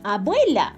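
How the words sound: The word is said smoothly as one unit. "Luego vuelves a repetirla toda junta"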